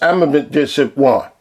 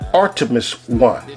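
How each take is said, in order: First: The name is said as Amethyst. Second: The name is said as Artemis. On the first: This imitates someone else's mispronunciation. The speaker calls it wrong. "But to him, it's Amethyst one" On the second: This is the usual name. The speaker calls it right. "It's Artemis one to us"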